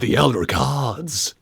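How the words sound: The word gods is emphasized and stretched out. The speaker calls it right. "emphasis on the word gods"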